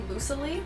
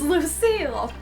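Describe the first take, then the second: First: The name ends with an extra 'lee' syllable. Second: The name ends on a plain 'seal' sound. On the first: The speaker calls it wrong. "I always pronounced her name Lucilee" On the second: The speaker calls it right. "it's Lucille"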